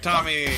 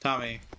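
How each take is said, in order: First: It imitates Timmy from South Park shouting. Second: It is said in an ordinary voice.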